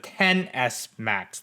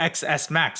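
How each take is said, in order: First: The X is said as the number ten. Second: The X is said as the letter name. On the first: The speaker calls it right. "it's the ten S Max" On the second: The speaker calls it wrong. "this phone isn't called the X S Max"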